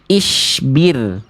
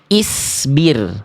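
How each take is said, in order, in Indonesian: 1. Konsonan tengahnya bunyi sh yang mendesis. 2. Konsonan tengahnya s yang ringan dan biasa. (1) "Jangan sampai dibaca ya" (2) "Jangan sampai dibaca ya"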